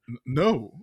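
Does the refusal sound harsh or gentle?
gentle. The refusal sounds gentle, not mean.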